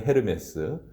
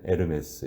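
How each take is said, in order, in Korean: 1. 이 단어는 h 소리로 시작해요. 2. 이 단어는 h 소리 없이 시작해요. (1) "발음을 하면" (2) "발음을 하지 않으면"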